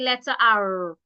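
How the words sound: It is said in an American accent. "Americans will say"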